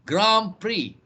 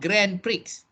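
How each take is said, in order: First: Prix ends in a vowel with no x sound. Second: Prix ends with a sounded x. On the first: The speaker calls it right. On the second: The speaker calls it wrong. "not Grand Prix"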